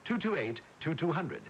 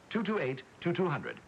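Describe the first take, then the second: No difference in how they are said.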